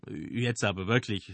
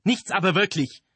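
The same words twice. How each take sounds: First: Calm, placating tone; soothing. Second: High, loud scornful retort; dismissive. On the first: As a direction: try to calm him down. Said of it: "den Wütenden zu beschwichtigen". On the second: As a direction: brush the objection aside loudly. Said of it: "wischte der den Einwand ... beiseite". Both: A narrator's reading.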